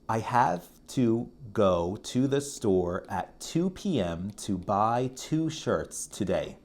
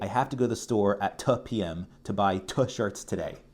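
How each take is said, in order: First: The number two is said fully and clearly. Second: The number two is reduced, said quickly.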